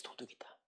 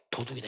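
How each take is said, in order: First: 도둑이다 repeated as an unvoiced whisper; whispered echo. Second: Said in the usual way. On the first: Shown as a demonstration. Preacher echoing that Judas was a thief, in a whisper. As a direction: breathe 도둑이다 as a hushed aside. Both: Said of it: "해서".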